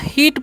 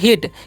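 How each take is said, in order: First: The vowel is drawn out long. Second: The vowel is said quick and short. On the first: The speaker calls it wrong. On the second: The speaker calls it right.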